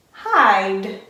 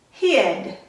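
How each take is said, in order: First: "hide" with a long i; long vowel. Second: "hid" with a short i; short vowel. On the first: Teacher models the magic E word for first graders, long vowel. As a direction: say "hide" with the i sounding like "eye". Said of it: "makes that I say its long sound". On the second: Teacher models the closed-syllable word for first graders, short vowel. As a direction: say "hid" with a short, lax i as in "sit". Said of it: "going to say its short sound". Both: Shown as a demonstration.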